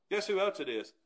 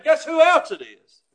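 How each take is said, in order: First: Quiet tease. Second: "Guess who else it is?" loud, with a laugh; loud laughing tease. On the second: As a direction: throw it at the crowd. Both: Acted.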